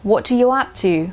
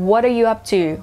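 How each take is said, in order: First: The consonant in 'up to' sounds like a clear T. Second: The consonant in 'up to' sounds like a soft D. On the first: "เป็นตัว t ก็ได้" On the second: "หรือจะเป็นตัวดอเด็กนะคะหรือ"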